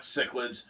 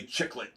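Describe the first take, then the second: First: "cichlids" said SICK-lids, with an s sound; soft-c pronunciation. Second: "chicklet" said CHICK-let, with a ch sound; ch pronunciation. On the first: Commenter correcting Rich, "cichlids" said with an s sound. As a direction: say "cichlids" starting with an s. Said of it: "you're wrong. That is not cichlids". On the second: Commenter correcting Rich, "chicklet" said with a ch. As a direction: start "chicklet" with a ch, for cichlid. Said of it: "changed the word cichlid to chicklets". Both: Retold or imitated.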